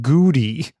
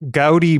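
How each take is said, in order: First: The first vowel sounds like 'oo'. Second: The first vowel sounds like 'aw'. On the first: The speaker calls it wrong. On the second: The speaker calls it right.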